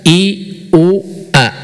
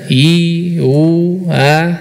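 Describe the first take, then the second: First: Each vowel starts with a clear, firm catch. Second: Each vowel glides in with no firm onset. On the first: "Kalau hamzah" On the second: "itu mad"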